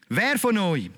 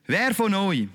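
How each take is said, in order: Both takes have the same delivery.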